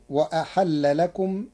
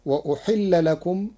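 First: وأحل said wa-ahalla, a on hamza and h; وأحل in active. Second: وأحل said wa-uhilla, u then i; وأحل in passive. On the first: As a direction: recite وأحل with open a vowels. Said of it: "بفتح الهمزة والحاء". (وأحل بفتح الهمزة والحاء) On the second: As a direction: recite وأحل with u on the hamza and i on the h. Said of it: "قرأ ورش كلمة". (وأحل بضم الهمزة وكسر الحاء) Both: Shown as a demonstration.

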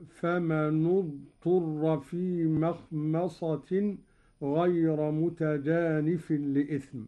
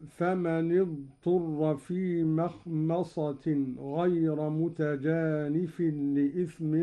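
First: فمن اضطر joined as "famanu-dturra"; Qalun's damma linking. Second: Said in the usual way. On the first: Shown as a demonstration. Sheikh demonstrates Qalun's reading, nun of فمن linked with u into اضطر. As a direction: put a u vowel on the nun of فمن before اضطر. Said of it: "بضم أولى الساكنين وهو النون هكذا". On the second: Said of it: "قرأ قالون بضم أولى الساكنين".

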